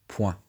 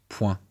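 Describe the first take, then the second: The two takes are said the same way.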